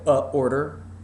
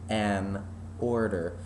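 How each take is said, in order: First: A glottal catch separates the article from 'order'. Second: The n links smoothly into 'order'. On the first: The speaker calls it wrong. "That glottal attack that you have to do in order to stop the sound" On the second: The speaker calls it right. "See how much prettier that is?"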